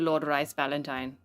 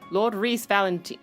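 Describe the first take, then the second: First: The name's vowel sounds like 'eye'. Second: The name's vowel sounds like 'ee'. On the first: The speaker calls it wrong. "rice is pronounced as Reese" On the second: The speaker calls it right. "pronounced as Reese"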